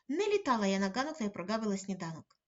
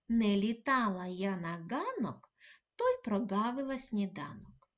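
First: It is spoken quickly in one breath. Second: It is spoken at a normal, careful pace. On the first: "видихаємо і швидко вимовляємо" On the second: "Слухаємо уважно другу частину"

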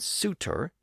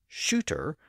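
First: The word begins with an s sound. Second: The word begins with an sh sound. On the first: "suitor as shooter" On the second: "suitor as shooter"

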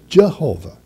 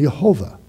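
First: The word begins with a J sound. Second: The word begins with an H sound. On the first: "We could say in English" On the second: "the proper pronunciation would be with an H sound"

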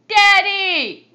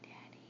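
First: It is said loudly. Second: It is said quietly.

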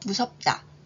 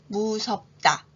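First: The word is said at normal speed. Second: The word is said slowly. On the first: "평균 속도로 해볼까요?" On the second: "천천히 해볼까요?"

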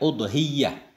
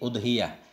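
First: The y sound is held long, doubled. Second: The y sound is short, single. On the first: "Udhiyah dhammah hamzah tasdid ya" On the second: "Dhammah hamzah enggak tasdid"

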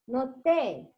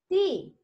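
First: The vowel is shortened toward an e sound. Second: The vowel is a full, clear i sound. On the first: The speaker calls it wrong. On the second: The speaker calls it right. "Complete the kasra. ... ti"

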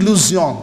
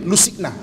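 First: The surname is said with a 'zion' ending. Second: The surname is read as spelled, ending 'sig-na'. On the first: "tapi pronunciation dia Guy de Luzion" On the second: "Kalau ikut dia punya bunyi"

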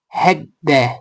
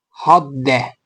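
First: The first vowel sounds like e. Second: The first vowel sounds like a.

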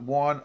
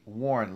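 First: The r sound is dropped, New York style. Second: The r sound is clearly pronounced. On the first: The speaker calls it wrong. "Sorry about that New York accent" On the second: The speaker calls it right. "Let me get that R back in there"

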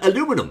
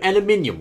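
First: It is said the American way, aluminum. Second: It is said the British way, aluminium.

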